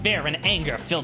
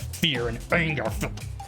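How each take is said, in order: First: The voice is loud and forceful. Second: The voice is low and growly. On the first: "Maybe I should just get loud instead" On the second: "I was trying to get like low and growly and angry"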